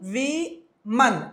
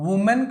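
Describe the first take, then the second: First: The word begins with a 'wi' sound. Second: The word begins with an 'oo' sound. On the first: The speaker calls it right. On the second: The speaker calls it wrong. "ఉమెన్ కాదు"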